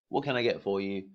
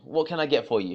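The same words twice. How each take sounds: First: It is said in a flat, expected tone. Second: It is said in a lively, warm tone. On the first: The greeting does not feel personal. The speaker calls it wrong. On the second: The greeting feels personal. The speaker calls it right.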